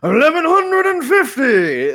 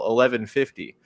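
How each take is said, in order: First: It is said in a booming darts announcer voice. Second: It is said in a plain, ordinary voice. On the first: "I really had the urge to do the darts guy voice" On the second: "I said the episode number title"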